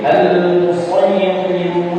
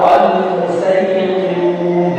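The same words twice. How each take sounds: First: The s sound is emphatic and heavy. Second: The s sound is plain and light. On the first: "boleh dibaca shad" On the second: "boleh dibaca sin"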